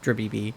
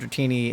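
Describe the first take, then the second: First: The middle consonants are pronounced as B sounds. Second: The middle consonants are pronounced as T sounds. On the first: The speaker calls it wrong. "I just put B's places they absolutely do not belong" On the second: The speaker calls it right. "instead of Dratini"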